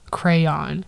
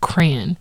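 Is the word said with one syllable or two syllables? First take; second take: two; one. First: The word is said as two syllables. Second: The word is said as one syllable. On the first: "the second one with two syllables" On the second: "with one syllable is crayon"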